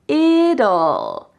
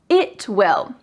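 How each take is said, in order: First: It is said as one contracted word, 'it'll'. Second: It is said as two full words, 'it will'. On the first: "Let's take out W and I and make it" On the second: "What about these words?"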